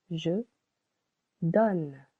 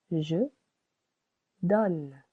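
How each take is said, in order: First: Je donne again, short O, one syllable; model pronunciation repeated. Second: Je donne with a short O, one syllable; model pronunciation. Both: Shown as a demonstration. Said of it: "As you can hear".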